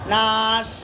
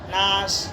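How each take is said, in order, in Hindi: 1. अंतिम व्यंजन रुका हुआ और दोहरा है। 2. अंतिम व्यंजन छोटा और कटा हुआ है। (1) "नास तशदीद है" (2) "नास सही है"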